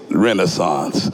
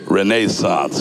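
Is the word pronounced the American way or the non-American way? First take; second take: American; non-American. First: It is pronounced the American way. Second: It is pronounced the local, non-American way.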